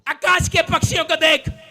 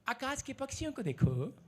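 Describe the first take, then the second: First: It is said as a sharp scolding. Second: It is read sweetly and lovingly.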